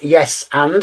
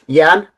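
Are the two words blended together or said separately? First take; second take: separately; blended. First: Both words are said fully and separately. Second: The two words run together into one reduced word. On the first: The speaker calls it wrong. "It's not yes and" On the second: The speaker calls it right. "it's yan"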